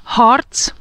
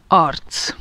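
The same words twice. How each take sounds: First: Harc with breathy H, rising. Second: Arc straight on the vowel, lower and soft; no H before arc; arc without H. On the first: Teacher contrasts Harc with H. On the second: Teacher contrasts arc without H. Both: Shown as a demonstration. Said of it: "entendez la différence".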